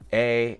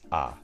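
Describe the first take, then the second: First: The vowel is a gliding ay sound. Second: The vowel is an open ah sound. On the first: The speaker calls it wrong. "It's not A" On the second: The speaker calls it right. "you know it's ah"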